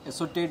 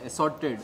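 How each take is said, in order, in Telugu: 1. మధ్య అచ్చు 'oh' లా ధ్వనిస్తుంది. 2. మధ్య అచ్చు 'ah' లా ధ్వనిస్తుంది. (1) "అసోర్టెడ్ కాదు" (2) "అది అసార్టెడ్"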